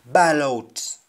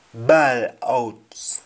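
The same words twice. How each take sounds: First: Said in the usual way. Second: Whispered gloss. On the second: Shown as a demonstration. Teacher whispers "Bawl out" to the class, hushed and unvoiced. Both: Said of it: "what is to scream in Jamaican".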